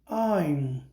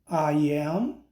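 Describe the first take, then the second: First: The two words are merged into one syllable. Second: Both words are said fully and separately. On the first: "Forma contraída" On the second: "é a forma integral"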